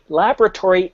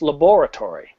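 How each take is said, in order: First: The word is not pronounced as it is spelled. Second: The word is pronounced as it is spelled. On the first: The speaker calls it wrong. "Laboratory is not a word" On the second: The speaker calls it right. "if we look at the way it's spelled"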